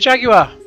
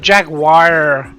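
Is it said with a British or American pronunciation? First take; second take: British; American. First: It is said in the speaker's British way. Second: It is said the American way, like jag-wire.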